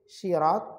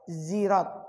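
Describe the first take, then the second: First: The word begins with an S sound. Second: The word begins with a Z sound. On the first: "bisa dibaca menggunakan sin" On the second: "bisa juga dibaca menggunakan zai"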